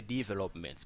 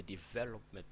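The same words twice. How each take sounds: First: Developments stressed on DE, as DEE-velopments; DEE-velopments, front-stressed; wrong stress. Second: Development with stress on VEL; development, second syllable stressed; correct stress. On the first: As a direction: mispronounce developments with a long, stressed first syllable. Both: Shown as a demonstration. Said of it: "We don't need the developments".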